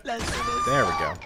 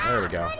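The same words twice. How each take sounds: First: Stretched high and slow; high drawn-out sing-song. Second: Said in the usual way. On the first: Shown as a demonstration. Gamer cheering his win in a stretched high voice. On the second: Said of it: "repeats line differently".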